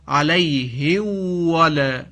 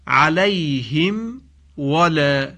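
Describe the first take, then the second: First: The m is merged into the following w. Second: The m is pronounced clearly before the w. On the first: The speaker calls it wrong. "بعضی ها اینجا میم رو در واو ادغام میکنن، مثلا میخوانن علیه ول، این درست نیست" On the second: The speaker calls it right. "به این عبارت عنایت بفرمایید"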